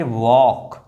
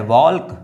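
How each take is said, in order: First: वॉक with long vowel straight into K; slow वॉक, no L sound; silent L. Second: वॉल्क with an audible L before K; L sounded. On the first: Teacher giving learners the reading, वॉक with silent L. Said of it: "L जो है वो silent है". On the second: Teacher testing a misreading on learners, वॉल्क with L sounded. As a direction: pronounce the L in वॉल्क. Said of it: "नहीं". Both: Shown as a demonstration.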